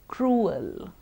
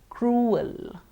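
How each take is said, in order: No difference in how they are said.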